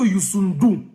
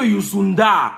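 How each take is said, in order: First: The name ends with an 'ou' sound. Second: The name ends with an 'a' sound. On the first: The speaker calls it right. "on dit qu'on dit que Youssundou" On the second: The speaker calls it wrong. "On n'a pas dit que Youssunda"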